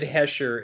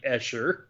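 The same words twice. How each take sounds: First: "Hesher" with an H sound in front; mispronounced Escher. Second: "Escher" starting straight on the E, no H; correct Escher. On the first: Correcting co-host's slip on the artist's name, mispronounced "Hesher". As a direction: say "Hesher", starting on a breathy H. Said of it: "I think you said Hesher". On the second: Correcting co-host's slip on the artist's name, "Escher" without H. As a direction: say "Escher" with an open vowel start. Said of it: "it's definitely Escher". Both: Shown as a demonstration.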